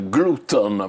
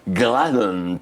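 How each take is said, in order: First: It is pronounced with Italian-style sounds. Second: It is pronounced with English-style sounds. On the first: The speaker calls it wrong. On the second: The speaker calls it right. "la parola inglese si dovrebbe pronunciare glutton"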